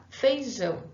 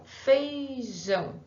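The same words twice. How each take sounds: First: Said in the usual way. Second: "Feijão" drawn out very slowly, syllable by syllable; slow, separated. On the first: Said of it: "Letra A, feijão". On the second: Shown as a demonstration. Teacher slowly spelling out the word for the class, stretched. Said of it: "Eu já deixei separado".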